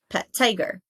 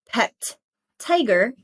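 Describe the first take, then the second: First: A single t sound joins the two words. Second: The t sound is pronounced twice, once per word.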